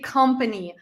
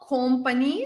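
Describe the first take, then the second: First: The first vowel is a short, reduced sound. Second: The first vowel is a long, full sound. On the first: The speaker calls it right. "We say company ... This is like a short, like a sound" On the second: The speaker calls it wrong. "So it's not company"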